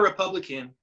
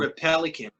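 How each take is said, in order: First: The middle syllable is said as 'pub'. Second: The middle syllable is said as 'pel'. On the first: The speaker calls it right. "Not a not a not a Republican" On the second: The speaker calls it wrong. "like a pelican. Like I, he said it wrong"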